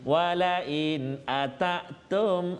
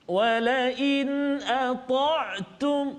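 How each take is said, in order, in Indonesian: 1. Bunyi t itu tipis dan ringan. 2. Bunyi t itu tebal dan berat. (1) "ata bunyi ta, tak tak tak jadi dia, dia tak kemas" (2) "biar dia bunyi bunyi steady, dia bunyi dia bunyi kemas"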